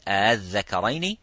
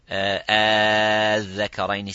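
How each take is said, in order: First: The hamza is softened between hamza and alif. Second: The long vowel is stretched for six counts. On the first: "And you will read the second one, Tasheel" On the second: "you will read the first one, Az-Zakaraini, six counts"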